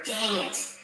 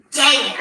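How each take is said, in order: First: 1 muttered curse. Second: Said in the usual way. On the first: Real, not acted. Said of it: "Oh, there's a, the first curse word". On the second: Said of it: "the first curse word".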